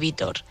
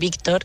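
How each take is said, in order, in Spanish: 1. El sonido k antes de la t se omite. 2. El sonido k antes de la t se pronuncia.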